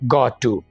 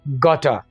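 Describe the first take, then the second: First: Both words are said fully and separately. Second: The words are blended into one reduced word. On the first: "simple English में इसको बोलते हैं गॉट टू" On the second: "अंग्रेज इसको कैसे बोलता है?"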